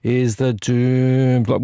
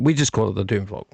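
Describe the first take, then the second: First: "Doom" slow and elongated; correct drawn-out DOOM. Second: Said in the usual way. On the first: Shown as a demonstration. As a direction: hold the vowel of "Doom" long, then drop "Vlog" in. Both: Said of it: "The correct way to say it".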